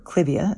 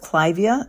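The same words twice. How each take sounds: First: The first syllable has a short 'i' vowel. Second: The first syllable sounds like 'Clive'. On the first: It is another common way of saying it. "as some people say" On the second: It follows the name of the man it honors. "that plant was named after a guy named Clive"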